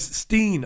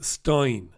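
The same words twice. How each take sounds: First: Said in the usual way. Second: "Stein" said to rhyme with line; "Stein" with an eye vowel, slowly; STEIN with long I. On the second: Shown as a demonstration. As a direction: say "Stein" as STINE. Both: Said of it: "pronounce Steen as Stein".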